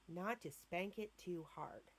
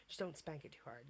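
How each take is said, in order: First: Quoting the doctor. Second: Said in the usual way. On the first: Retold or imitated. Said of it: "and I quote from the doctor's mouth". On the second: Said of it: "repeating the doctor's advice".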